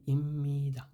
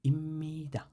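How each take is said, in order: Both takes have the same delivery.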